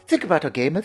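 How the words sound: It is said in a put-on British accent.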